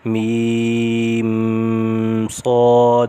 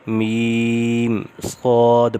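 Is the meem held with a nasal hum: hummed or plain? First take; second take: hummed; plain. First: The meem is held with a nasal hum. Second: The meem is said without a nasal hum. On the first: The speaker calls it wrong. "ये पढ़ना गलत है" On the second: The speaker calls it right. "यहाँ पे गुन्ना नहीं होगा"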